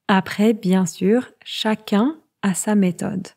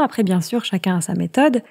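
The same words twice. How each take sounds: First: It is spoken at a slower, careful pace. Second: It is spoken at a faster, quicker pace.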